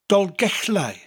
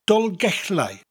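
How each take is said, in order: Both takes have the same delivery.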